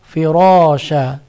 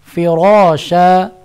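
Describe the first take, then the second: First: The r is pronounced thick and heavy. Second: The r is pronounced thick and heavy.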